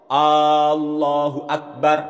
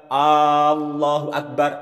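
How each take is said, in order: The two takes are said the same way.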